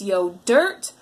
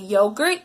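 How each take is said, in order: First: The middle consonant is a D sound. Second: The middle consonant is a G sound. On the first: The speaker calls it wrong. "it's yo dirt" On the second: The speaker calls it right. "if they're trying to say yogurt"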